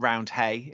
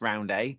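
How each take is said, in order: First: The second syllable starts with an h sound. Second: The second syllable starts with no h sound. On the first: The speaker calls it wrong. "it's not Round Hay" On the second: The speaker calls it right. "it's Round A"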